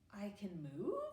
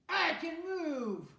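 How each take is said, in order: First: It sounds confused. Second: It sounds angry.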